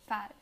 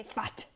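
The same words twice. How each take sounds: First: "fat" stopped with no puff of air; unreleased T. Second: "fat" with a strong puffed T; released T. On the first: Teacher showing American English, "fat" with held T. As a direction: hold the T in "fat". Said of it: "you don't pronounce the T strongly". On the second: Teacher showing the wrong way, "fat" with hard T. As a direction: pop the final T in "fat". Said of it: "You don't say fat". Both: Shown as a demonstration.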